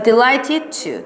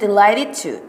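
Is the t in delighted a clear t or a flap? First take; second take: clear t; flap. First: The t in delighted is a clear t. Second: The t in delighted is a soft flap. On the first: "delighted 처럼 소리가 나요" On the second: "T 발음을 리을처럼 하시는 분들도 있잖아요"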